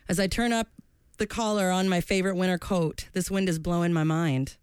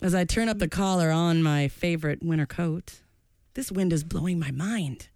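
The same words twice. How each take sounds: First: It is read in a plain, casual way. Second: It is read dramatically, like a performing poet.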